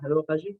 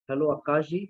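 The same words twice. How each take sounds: First: It is said fast. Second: It is said slowly.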